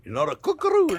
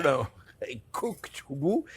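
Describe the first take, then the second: First: "cook roux" clipped, with no d on cook; high, quick "cook roux" the wrong way; mock the mistaken "cook roux". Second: Slow "cooked roux" with a clear d on cooked; careful right way, "cooked roux", slow; said slowly. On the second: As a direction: stretch out "cooked roux" deliberately. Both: Shown as a demonstration. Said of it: "let me say it slowly".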